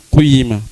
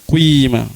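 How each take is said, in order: The two takes are said the same way.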